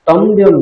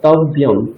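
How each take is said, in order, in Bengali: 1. মাঝের ব্যঞ্জনের আগে একটি m ধ্বনি যুক্ত হয়। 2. মাঝের ব্যঞ্জনটি কোনো m ধ্বনি ছাড়াই আসে। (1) "তম্ব্যম নয়" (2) "তকার বকার ইয়কার তারপর অনুস্বার"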